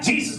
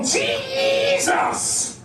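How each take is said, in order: First: The word is said flatly, with little energy. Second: The word is said loudly, with strong energy. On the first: It is only stated plainly. The speaker calls it wrong. "None of them just say Jesus" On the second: It is meant to stir up feeling in the listener. The speaker calls it right. "They go"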